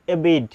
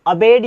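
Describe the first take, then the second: First: एबेड, starting on 'ay', not 'uh'; first vowel as 'ay'. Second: अबेड, starting on schwa 'uh', not 'ay'; first vowel as short 'uh'. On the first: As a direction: say एबेड with a long 'ay' opening. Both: Shown as a demonstration. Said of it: "अ या ए बोल सकते हैं".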